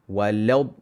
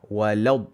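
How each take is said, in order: No difference in how they are said.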